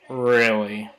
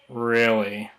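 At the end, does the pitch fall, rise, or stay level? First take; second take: fall; fall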